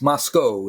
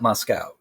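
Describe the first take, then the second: First: The last syllable does not sound like 'cow'. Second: The last syllable sounds like 'cow'. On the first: The speaker calls it right. "it's Moscow" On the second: The speaker calls it wrong. "It's not Moscow. There is no cow in Moscow"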